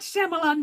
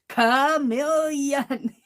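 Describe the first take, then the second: First: The word begins with a sh sound. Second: The word begins with a k sound. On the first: The speaker calls it wrong. "I was mispronouncing the word uh, chameleon, I was calling it Shyamalan" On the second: The speaker calls it right. "it's chameleon"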